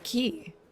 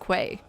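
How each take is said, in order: First: The word sounds just like 'key'. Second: The word is said with a 'kw' sound, 'kway'. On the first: The speaker calls it right. "The word key is pronounced key" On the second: The speaker calls it wrong. "its common mispronunciation"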